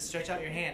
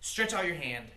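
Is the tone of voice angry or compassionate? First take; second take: compassionate; angry. First: It is said in a gentle, compassionate tone. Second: It is said in an angry, irritated tone. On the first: The speaker cares for the person addressed. The speaker calls it right. "with compassion for the man" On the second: The speaker is acting out of anger. The speaker calls it wrong. "I'm guessing he's not"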